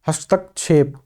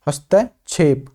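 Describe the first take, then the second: The two takes are said the same way.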